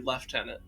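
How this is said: It is said the British way.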